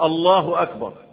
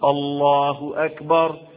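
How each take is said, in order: First: The vowel in Allah is kept short. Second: The vowel in Allah is drawn out long. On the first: The speaker calls it wrong. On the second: The speaker calls it right.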